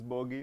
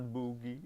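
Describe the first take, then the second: First: The first vowel sounds like 'oh'. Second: The first vowel sounds like 'oo'. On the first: The speaker calls it right. "It's bogey" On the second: The speaker calls it wrong. "It's not boogie"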